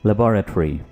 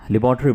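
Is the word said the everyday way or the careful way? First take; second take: careful; everyday. First: It is said the careful, precise way. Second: It is said the everyday, casual way. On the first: This is the correct English pronunciation. The speaker calls it right. "Correctly English में कैसे pronounce करेंगे?" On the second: This is how people usually say it. The speaker calls it wrong. "आमतौर पर तो लेबोरेटरी बोला जाता है"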